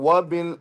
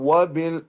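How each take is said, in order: Both takes have the same delivery.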